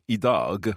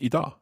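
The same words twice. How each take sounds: First: It is said carefully and fully. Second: It is said quickly and reduced.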